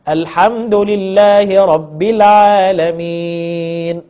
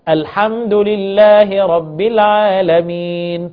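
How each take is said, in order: First: The vowel before the final n is held moderately. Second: The vowel before the final n is held briefly. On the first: "أربع حركات" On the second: "حركتين"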